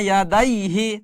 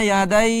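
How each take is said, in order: First: The word ends with a full hi syllable. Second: The word ends on a bare h sound. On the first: The reading continues without stopping. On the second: The reader stops at this word.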